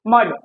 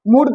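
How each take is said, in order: First: "मड" with a short uh, as in sun; short uh vowel. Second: "मूड" with an oo vowel in place of the short uh; mud misread as mood. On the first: Teacher giving the U sound in mud, short uh in "मड". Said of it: "M यू D मड होता है". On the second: Teacher showing how U in mud is not said, oo in "मूड". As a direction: say mud wrongly, rhyming with food: "मूड". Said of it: "यहाँ पर मूड कभी बोलते हैं". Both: Shown as a demonstration.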